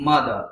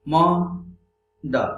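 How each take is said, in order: First: Said in the usual way. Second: Mother split in two, a long pause between the syllables. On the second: Shown as a demonstration. Teacher counting syllables for learners, mother said syllable by syllable. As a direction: break mother into two separate beats. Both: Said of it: "In the same way".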